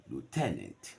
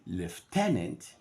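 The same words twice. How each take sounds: First: "lieutenant" said as LOO-tenant; American lieutenant. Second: "lieutenant" said as LEF-tenant, slow; British lieutenant. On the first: Teacher giving the American form to the class. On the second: Teacher giving the British form to the class. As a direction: give "lieutenant" a leff sound at the start. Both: Shown as a demonstration.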